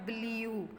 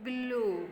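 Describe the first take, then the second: First: ब्लू said with a y-glide, "bl-yoo"; wrong pronunciation. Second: ब्लू with no y-glide, straight from l to the vowel; pronunciation by sounds. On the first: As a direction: slip a "y" into ब्लू before the long oo. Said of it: "that is wrong". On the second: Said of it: "अगर हम sounds के according चलें". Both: Shown as a demonstration.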